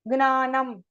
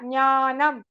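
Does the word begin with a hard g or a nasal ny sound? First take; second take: hard g; nasal ny. First: The word begins with a hard g sound. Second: The word begins with a nasal ny sound. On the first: The speaker calls it wrong. "some people put Guna, Gnanam, Gneyam. It is wrong" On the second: The speaker calls it right. "It is a nasal tone. Nya"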